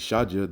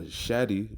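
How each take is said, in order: First: The word ends with a 'jah' sound. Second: The word ends with a 'dee' sound. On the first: The speaker calls it right. "which it should be Shaja" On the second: The speaker calls it wrong. "it says uh, Shadi"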